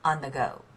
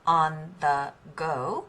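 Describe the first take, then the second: First: The words run together in a linked rhythm. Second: The words are said separately with even weight. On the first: The speaker calls it right. "you want to say" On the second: The speaker calls it wrong. "instead of"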